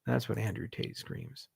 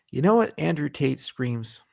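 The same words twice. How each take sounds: First: Hushed punchline. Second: Said in the usual way. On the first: Acted. Deadpan repeat of the Tate joke, hushed. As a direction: repeat it much softer, almost under the breath.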